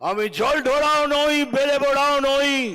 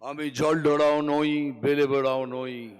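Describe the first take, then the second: First: The line is said loudly and forcefully. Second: The line is said at a normal volume. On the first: "সেই জন্য আজকে জোরে বলবো" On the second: "খালি এইটুকুই বলবো"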